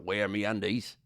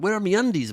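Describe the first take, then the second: First: It is said in a deep Australian accent. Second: It is said in a British child's accent. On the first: "Australian would be more like a" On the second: "Or maybe like a British child"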